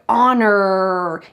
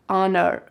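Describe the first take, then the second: First: The R sound is hard and strong. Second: The R sound is rolled and not strong. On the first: "in American English, the R is very hard" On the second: "It's rolled inside the mouth"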